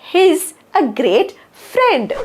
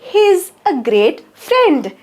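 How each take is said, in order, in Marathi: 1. 'He is' एका लहान अक्षरात आखूड होते. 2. 'He is' एका लहान अक्षरात आखूड होते.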